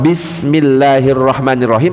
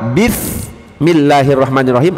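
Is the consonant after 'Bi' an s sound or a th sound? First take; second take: s; th. First: It is said with a plain s sound. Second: It is said with a th sound. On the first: It means in the name of God. The speaker calls it right. "Dengan nama Allah yang maha pengasih maha penyayang" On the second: It means with the sin of God. The speaker calls it wrong. "Dengan dosa Allah yang maha pengasih maha penyayang"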